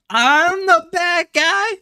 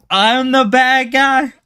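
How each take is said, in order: First: Very high, slow squeaked question; squeaky mock outrage. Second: High, slow, indignant question; mock outrage. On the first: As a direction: squeak it out like a cartoon victim. Mock outrage, pushed further. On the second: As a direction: pretend to be offended, drawing it out. Mock outrage at being blamed.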